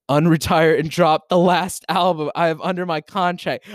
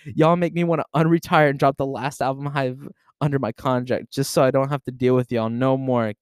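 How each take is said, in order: First: Higher, louder, gloating excitement; gleeful outburst. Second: Said in the usual way. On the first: Real, not acted. Streamer reading the post aloud to chat, gleefully crowing. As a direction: crow over being right.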